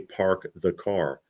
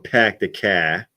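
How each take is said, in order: First: It is said in his milder Boston accent. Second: It is said in a broad Revere/Southie accent.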